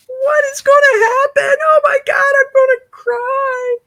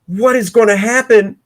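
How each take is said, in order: First: Very high hammed-up shriek of suspense; mock suspense wail. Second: Said in the usual way. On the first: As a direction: squeal it way up like you can't bear it. Mock suspense over the drawing.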